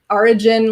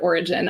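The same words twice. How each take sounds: First: The word is said in a New Jersey accent. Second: The word is said in a standard accent. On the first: "like orange or Florida or those kinds of words from Jersey" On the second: "the correct pronunciation of the word origin"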